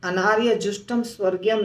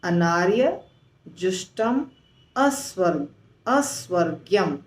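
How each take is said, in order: First: The 'a' before 'svargiyam' is left out. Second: The 'a' before 'svargiyam' is clearly said. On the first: The speaker calls it wrong. "नहीं बोल करके" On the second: The speaker calls it right. "बोल करके"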